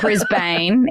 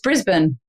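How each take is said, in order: First: Pronounced the way Americans say it. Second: Pronounced the way Australians say it. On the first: The speaker calls it wrong. "it's not Brisbane either" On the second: The speaker calls it right. "It's Brisbane"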